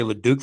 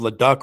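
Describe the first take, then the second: First: "Leduc" with a long oo in the last syllable; "Leduc" ending like duke; corrected surname. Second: "Leduc" with a short uh, rhyming with truck; anglicized "Leduc", ending like duck; mispronounced surname. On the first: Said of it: "I'll say Leduc from now on". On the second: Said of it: "I'll pronounce your name, uh, instead of Leduc". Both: Shown as a demonstration.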